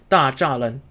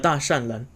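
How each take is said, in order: First: The middle syllable is a full zha. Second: The middle syllable is a full shan. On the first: This is the normal standard reading of the name. "which is how we would normally pronounce it" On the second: This is the older established reading of the name. "they still pronounce it as Da Shan Ren"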